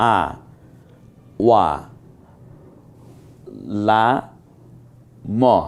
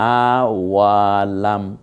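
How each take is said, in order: First: It is broken into separate syllables with gaps. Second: The syllables are joined together at moderate speed. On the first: "প্রথমে পড়ুন" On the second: "এবার মিলে পড়ি"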